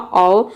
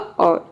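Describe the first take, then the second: First: The final r sound is left silent. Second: The final r sound is lightly pronounced. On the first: "जब इसको silent कर देंगे तो इसका pronunciation होगा" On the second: "आर को आधा रख के सामने प्रोनाउंस करेंगे तो ये हो जाएगा"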